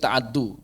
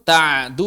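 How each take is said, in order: First: A vowel follows the ain, with a doubled d. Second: The ain carries no vowel, with a single d.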